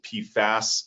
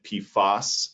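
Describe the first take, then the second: First: The second syllable has the vowel of 'fast'. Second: The second syllable has the vowel of 'boss'. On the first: This is the form the speaker's group uses. The speaker calls it right. "we pronounce it P FAS" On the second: This is the form some other people use. The speaker calls it wrong. "Some people have been pronouncing it P FOS"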